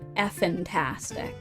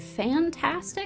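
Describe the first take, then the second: First: The name starts with the sound 'eff'. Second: The name starts with the sound 'fan'. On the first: It reflects the missing letter in the spelling. "so I've been calling it Effentastic" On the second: Other people say it this way. "some people pronounce it Fantastic"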